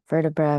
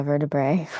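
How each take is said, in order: First: First try at the word, "vertebra" ending in uh; self-corrected pronunciation. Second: "vertebrae" said as VER-de-bray, ending in ay, a little louder; corrected pronunciation. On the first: Yoga teacher trying the word "vertebra" ending in uh. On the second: Yoga teacher correcting herself to say "vertebrae" with ay. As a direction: settle on "vertebrae" with a final ay sound. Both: Shown as a demonstration.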